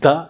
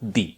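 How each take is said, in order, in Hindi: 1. स्वर एक छोटी 'uh' ध्वनि है। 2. स्वर एक लंबी 'ee' ध्वनि है। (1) "കോൺസണന്റിന് മുൻപ് ദ" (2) "വൊവലിന് മുൻപ് ദി"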